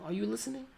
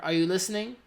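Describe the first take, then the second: First: It is said at normal volume. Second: It is said louder than normal.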